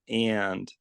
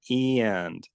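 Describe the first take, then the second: No difference in how they are said.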